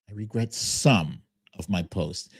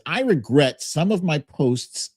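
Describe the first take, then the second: First: The word 'some' is strongly emphasized. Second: The word 'some' gets no special emphasis.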